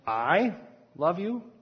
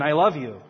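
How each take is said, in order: First: It is said as a question. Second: It is said as a clear statement.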